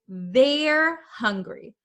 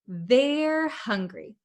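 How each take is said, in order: First: They are is shortened into one syllable. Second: They are is shortened into one syllable.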